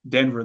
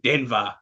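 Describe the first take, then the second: First: It is said in the speaker's own natural accent. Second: It is said as an exaggerated imitation of that accent. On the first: This is how the speaker really says it. "say it your way" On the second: This is how outsiders imagine the speaker's group says it. "That's how they think we say it"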